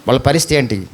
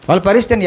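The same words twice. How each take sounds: First: A low, heavy question. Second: Said in the usual way. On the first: Shown as a demonstration. Preacher asking the congregation about the lost, low heavy question. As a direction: drop much lower on వాళ్ళ పరిస్థితి ఏంటి.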